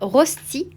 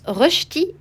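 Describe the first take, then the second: First: The first vowel is a plain 'o' sound. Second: The first vowel is a rounded 'eu' sound. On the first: The speaker calls it wrong. "et non pas rosti comme je peux l'entendre parfois" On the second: The speaker calls it right. "Ça se prononce rösti"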